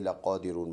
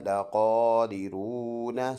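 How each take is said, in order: First: The word ends on the n sound. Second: The word ends with a short a after n. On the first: "stop करेंगे तो नून का ज़बर साइलेंट करेंगे" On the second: "نون زبرنا"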